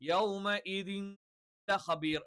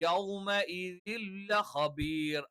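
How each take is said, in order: First: The n is held with a nasal hum. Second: The n merges straight into the l. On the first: The speaker calls it wrong. "യൗമഇദിൻ ലഖബീർ എന്ന് പറയില്ല" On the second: The speaker calls it right. "ചേർത്തു അങ്ങ് അവസാനിപ്പിക്കും"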